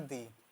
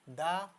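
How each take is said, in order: First: The word ends in a long 'ee' vowel. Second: The word ends in a short 'uh' vowel. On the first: It comes before a word starting with a vowel. "Vowel से start होने वाले word से आगे ... बोलते हैं दी" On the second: It comes before a word starting with a consonant. "दा तब बोलते हैं जब ... कॉन्सोनेंट से स्टार्ट होता है"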